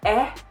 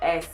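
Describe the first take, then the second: First: The final s sound is dropped. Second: The final s sound is pronounced.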